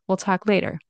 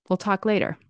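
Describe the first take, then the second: Both takes have the same delivery.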